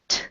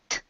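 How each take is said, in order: First: The t is a slower, firm stop. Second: The t is a quick, light flap. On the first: "it's like it goes like this, and it's more slow" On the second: "the morphing T ... is that your tongue is a little bit more like a bird's wing"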